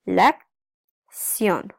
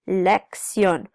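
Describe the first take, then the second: First: "lección" split into lec, pause, ción; slow, separated syllables on "lección". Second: Said in the usual way. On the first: Shown as a demonstration. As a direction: break "lección" in two with a clear gap after lec. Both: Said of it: "There's two syllables here".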